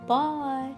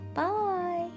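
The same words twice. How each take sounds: First: It is said in a deep, gruff voice. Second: It is said in a high, squeaky voice.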